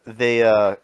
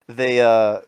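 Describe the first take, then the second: No difference in how they are said.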